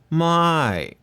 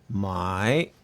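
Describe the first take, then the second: First: The word is said with a falling tone. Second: The word is said with a rising tone. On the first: "it's a falling tone" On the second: "the my is a rising tone"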